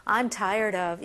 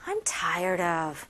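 First: Said in the usual way. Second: "I'm tired of" low and drawn out, with feeling; low, slow, weary "I'm tired of"; weary emphasis. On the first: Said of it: "이거보다는". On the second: Shown as a demonstration. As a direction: put fed-up emotion into "I'm tired of," slowly. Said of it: "감정을 또 넣어야 되겠죠".

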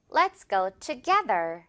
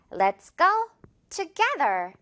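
First: Let's go together slowly, lower, middle syllable of together stressed; slow stressed repeat. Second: Let's go together said very slowly with the middle syllable of together stressed. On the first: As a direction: say it again slowly, tu-GE-ther. (낮고 천천히, together 가운데 강세) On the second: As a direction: drag it out, hitting tu-GE-ther. (아주 천천히, together의 깨에 강세) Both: Shown as a demonstration. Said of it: "깨 부분에 강하게요".

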